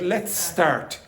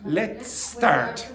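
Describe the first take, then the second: First: The two s sounds merge into one long s. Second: The two s sounds merge into one long s.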